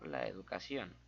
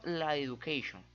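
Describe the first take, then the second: First: Said in the usual way. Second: "education" said the English way, as e-du-KAY-shon; English slip. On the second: Shown as a demonstration. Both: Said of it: "Hizo la educación".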